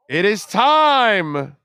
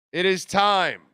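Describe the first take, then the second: First: Slow, loud proclamation; grand rich voice. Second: Said in the usual way. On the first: Pretend. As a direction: announce it slowly like an oracle. Summoning the Sportstradamus.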